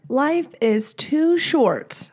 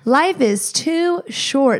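First: It is said at a normal volume. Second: It is said at a louder volume.

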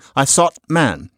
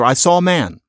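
First: The t is replaced by a glottal stop. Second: The t sound is left out completely. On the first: "I'm doing a glottal stop" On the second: "it just disappears altogether"

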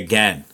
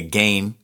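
First: It is said with an American pronunciation. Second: It is said with a Canadian pronunciation. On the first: "So I have to say again" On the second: "as Canadians, we say again"

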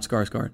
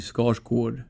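First: The second vowel sounds like an 'a'. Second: The second vowel sounds like an 'o'. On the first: The speaker calls it wrong. "and not" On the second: The speaker calls it right. "my last name in Swedish would be"

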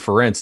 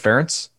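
First: The name does not rhyme with parents. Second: The name rhymes with parents. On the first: The speaker calls it wrong. "I'm saying Ference" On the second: The speaker calls it right. "instead of Ference"

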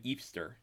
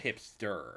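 First: The word begins without any h sound. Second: The word begins with a clear h sound.

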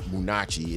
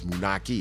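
First: The middle consonant is a 'ch' sound. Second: The middle consonant is a 'k' sound. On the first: The speaker calls it wrong. "It's not Munachi" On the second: The speaker calls it right. "That's the way you say it"

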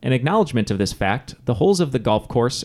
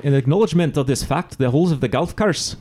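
First: It is read in a standard accent. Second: It is read in a Scottish accent.

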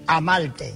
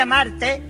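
First: The r sounds like an l, Puerto Rican style. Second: The r is pronounced as a normal r.

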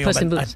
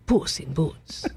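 First: It is said in a plain, ordinary voice. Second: It is said in a put-on, exaggerated accent. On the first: The speaker calls it wrong. "You can't say Puss in Boots" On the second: The speaker calls it right. "You have to say it like this"

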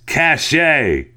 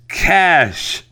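First: The word is said with two syllables. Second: The word is said with one syllable. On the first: The speaker calls it wrong. "you repeatedly pronounced it cachet" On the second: The speaker calls it right. "The pronunciation of the word is is cash"

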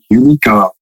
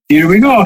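First: It is said in a plain, normal voice. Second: It is said in an exaggerated Mario voice.

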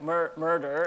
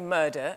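First: It is said in a forced American accent. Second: It is said in a British accent. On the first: "when I try and say it in American, it comes out like murder, and it sounds really bad" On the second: "in England, I think we clamp. Just like that one. Yeah. So I say murder"

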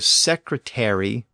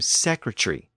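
First: The ending is a full 'airy' syllable. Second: The ending is shortened to a brief 're'. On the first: "from airy" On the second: "to just re"

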